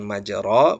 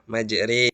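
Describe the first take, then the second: First: The vowel after r sounds like a. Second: The vowel after r sounds like e. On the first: The speaker calls it wrong. "bukan majro" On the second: The speaker calls it right. "fathah dibaca antara fathah dan kasroh, yaitu e ya"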